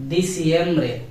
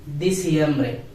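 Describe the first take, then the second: No difference in how they are said.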